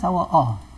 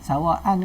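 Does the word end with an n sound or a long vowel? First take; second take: long vowel; n sound. First: The word ends with a long vowel. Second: The word ends with an n sound. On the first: The reader stops on this word. "sawa'a kalau berhenti jadi sawa'a" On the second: The reading continues without stopping. "Sawa'an ni sawa'an ke sawa'a?"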